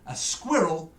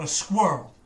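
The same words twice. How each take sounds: First: Squirrel in two clear syllables, SKWIRR-ul; British pronunciation. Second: Squirrel squashed into one syllable, "skwurl"; American pronunciation. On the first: Shown as a demonstration. Brit correcting Americans on a word, British pronunciation. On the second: Retold or imitated. Brit mimicking American speech to object, American pronunciation. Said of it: "is not a squirrel".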